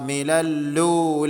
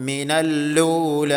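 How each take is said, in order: Both takes have the same delivery.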